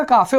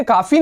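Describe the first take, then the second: First: काफे said kaa-fe, ending in a short e; the German way, काफे with a final e; correct pronunciation. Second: काफ़ी said with a long ee ending, the wrong way; the English-style काफ़ी, ending in ee; wrong pronunciation. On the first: Teacher correcting students with काफे. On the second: Teacher showing students the wrong reading काफ़ी. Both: Shown as a demonstration. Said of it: "काफ़ी नहीं बनेगा".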